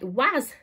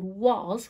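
First: The vowel sounds like 'a' and ends in s. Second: The vowel sounds like 'oh' and ends in z. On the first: "It looks like was" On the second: "because it's making an oh sound, was, w-o-z"

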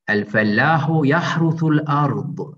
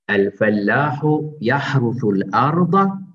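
First: The last word ends on a consonant. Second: The last word ends with a short vowel.

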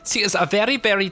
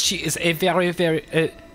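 First: It is spoken in a stage German accent. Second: It is spoken in a French accent. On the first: The speaker calls it right. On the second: The speaker calls it wrong.

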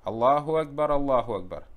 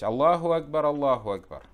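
First: The two phrases are joined together as a pair. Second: The two phrases are joined together as a pair.

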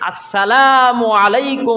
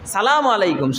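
First: The greeting begins with the full 'as' syllable. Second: The opening 'as' syllable is dropped entirely. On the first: The speaker calls it right. "সুন্দর ভাষায় শুদ্ধ ভাষায় সালাম দেবে।" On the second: The speaker calls it wrong. "সবচাইতে বেশি ভুল করি সালাম আলাইকুম, শুরুতে আসসালাম আলিফলাম বাদ দিয়ে দিই"

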